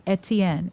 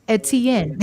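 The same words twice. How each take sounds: First: Said in the usual way. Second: Put-on mother saying her son's name in Jamaican accent. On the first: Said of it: "she says it". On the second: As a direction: Etienne with a Jamaican lilt. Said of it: "she goes into that Jamaican accent".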